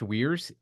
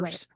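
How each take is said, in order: First: The vowel sounds like the one in 'weird'. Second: The vowel sounds like the one in 'fire'. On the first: The speaker calls it wrong. "not pronounced Weirs" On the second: The speaker calls it right. "It's pronounced"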